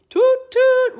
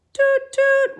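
First: Loud toot near the usual pitch; louder playful toot. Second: High, slow, loud boat horn; boat horn toot. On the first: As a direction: join in with the boats' toots. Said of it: "Toot, toot went Danny and the dinosaur". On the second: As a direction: sound like the boats' horns. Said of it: "Toot, toot went the boats". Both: Acted.

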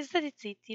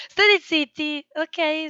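First: Said in the usual way. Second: Loud, high shout of shut up; shouted hush. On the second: Real, not acted. Streamer yelling at noisy people off-mic to shut up.

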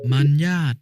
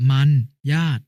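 First: Said in the usual way. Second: มัน, pause, ญาต, each on its own; syllable-by-syllable reading. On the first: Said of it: "คำว่า". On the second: Shown as a demonstration. Brother giving an example reading, syllable by syllable: มัน ญาต. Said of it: "อ่านว่า".

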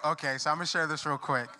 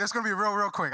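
First: Said in the usual way. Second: "real, real quick" with "real" repeated higher and stressed. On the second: Shown as a demonstration. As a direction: lean on "real" both times, higher and insistent. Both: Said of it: "Real, no, you can stand".

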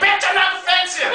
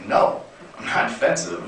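First: Much higher, exploding comic outburst; pissed-off snap. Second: Whispered, lower, defeated protest; meek whispered denial. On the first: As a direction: finally lose it and yell back. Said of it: "I was so pissed off". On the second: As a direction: barely dare to say it. Denying during argument with girlfriend. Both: Retold or imitated.

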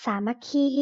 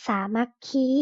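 First: Said in the usual way. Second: สามัคคี sounded out syllable by syllable; reading pronunciation. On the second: Shown as a demonstration. (อ่าน สามัคคี แยกทีละพยางค์) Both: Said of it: "อ่านว่า".

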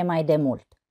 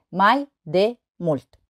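First: Said in the usual way. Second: Slow, a pause between syllables. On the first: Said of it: "O altă poezie". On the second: Shown as a demonstration. Teacher showing three syllables, syllable by syllable. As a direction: separate each syllable for counting. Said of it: "Trei silabe".

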